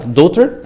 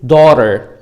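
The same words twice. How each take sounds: First: It is said in a plain, neutral accent. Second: It is said in an American accent. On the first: "ممكن تقولها daughter عادي جدا" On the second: "ده امريكان اكسنت"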